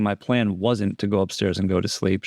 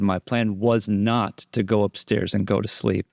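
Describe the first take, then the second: First: Said in the usual way. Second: "was not" spelled out as two separate words; uncontracted was not. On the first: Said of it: "so she's not saying". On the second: Shown as a demonstration. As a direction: give "was" and "not" each their own weight. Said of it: "She said".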